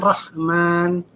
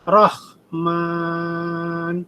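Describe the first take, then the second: First: The long vowel is held for a normal length. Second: The long vowel is stretched out too long. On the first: The speaker calls it right. "dua, dua" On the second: The speaker calls it wrong. "Anda membacanya tiga karena kelamaan"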